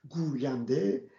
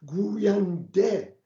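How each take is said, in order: First: Said in the usual way. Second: گوینده said slowly, its final ه sounded out clearly; slow and louder, land on the final ه of گوینده; pronounced final h. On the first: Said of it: "هیچ کدام از اینا های غیر ملفوظ نیست". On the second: Shown as a demonstration. Teacher showing students the spoken h in گوینده, slow and clear. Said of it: "های ملفوظه".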